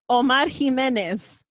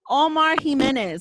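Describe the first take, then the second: First: The name is said in a strong Spanish accent. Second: The name is said in a plain English accent.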